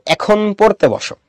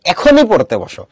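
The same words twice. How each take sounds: First: Said in the usual way. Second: Insistent stress on এখনই; emphatic command. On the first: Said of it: "অত বেশি জোরাজুরি নাই". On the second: Shown as a demonstration. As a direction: hit এখনই hard, as a firm order. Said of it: "আমি জোর দিয়ে বলতেছি".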